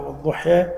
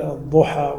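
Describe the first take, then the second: First: والضحى ending in a tilted "eh" vowel; imala. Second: Said in the usual way. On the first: Shown as a demonstration. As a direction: turn the last a of والضحى to e. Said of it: "بعض العرب يميلون ال". («والضحى» بإمالة الألف إلى الياء) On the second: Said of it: "هذه لهجات".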